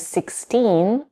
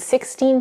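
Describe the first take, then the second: First: The stress is on the second syllable. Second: The stress is on the first syllable. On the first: "I'm sixteen" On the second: "In the latter, the stress shifts to maintain a natural rhythm"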